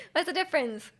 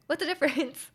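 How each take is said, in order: First: Amused, laughing as you say it again. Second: Said in the usual way. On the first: Real, not acted. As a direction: repeat "What's the difference?" with a real laugh through it. Repeats the question, laughing.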